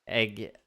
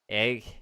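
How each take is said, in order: Both takes have the same delivery.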